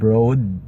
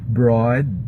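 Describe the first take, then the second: First: The vowel is said with a narrower mouth. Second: The vowel is said with the jaw dropped open. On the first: The speaker calls it wrong. "not broad" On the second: The speaker calls it right. "like drop your jaw"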